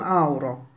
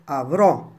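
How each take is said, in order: First: A u vowel follows the first a. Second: A clear v sound follows the first a. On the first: The speaker calls it wrong. "non auro" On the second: The speaker calls it right. "la parola da pronunciare è avrò"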